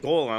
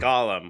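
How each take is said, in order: First: The first vowel is a long 'oh' sound. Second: The first vowel is a short 'o' sound. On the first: It sounds like the fantasy stone creature. The speaker calls it wrong. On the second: It names the character. The speaker calls it right.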